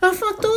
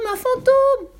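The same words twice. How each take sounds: First: Much higher panicked cry, rising; terrified cry. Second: Much higher, louder falling scream; terrified scream. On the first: Tommy seeing a dark shape in the attic, rising panicked cry. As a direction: yelp it out in fright. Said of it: "Il cria de toutes ses forces". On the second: Annika joining Tommy's ghost panic, louder falling scream. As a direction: scream it at full fright. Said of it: "bientôt imité par Annika". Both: A narrator's reading.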